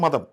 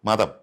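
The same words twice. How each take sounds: First: The middle consonant is said softly and plainly. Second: The middle consonant is pressed with extra force. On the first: It means religion. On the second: It means madness.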